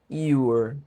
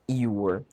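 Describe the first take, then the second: Both takes have the same delivery.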